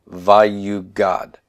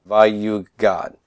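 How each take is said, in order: The two takes are said the same way.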